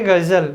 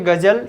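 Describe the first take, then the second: First: The word begins with a z sound. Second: The word begins with a j sound. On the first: "एक जौ में लगा दिया नुक्ता" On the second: "example गज़ल"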